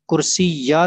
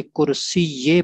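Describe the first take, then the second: First: कुर्सी या ending in an open "yaa"; wrong ending, -ya. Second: कुर्सी ये ending in "ye"; correct ending, -ye. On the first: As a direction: say कुर्सी या with an a-vowel at the end. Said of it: "कुर्सी या नहीं पढ़ना". (कुर्सी या, आखिर में "या" की आवाज़) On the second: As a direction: say कुर्सी ये with an e-vowel at the end. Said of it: "बल्कि कुर्सी ये पढ़ना है". (कुर्सी ये, आखिर में "ये" की आवाज़) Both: Shown as a demonstration.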